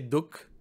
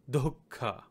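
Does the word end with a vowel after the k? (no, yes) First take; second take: no; yes. First: The word ends on the k with no vowel. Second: The word ends in a vowel after the k. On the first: "In Hindi, we just say duk" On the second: "the proper pronunciation of this in Sanskrit is dukkha"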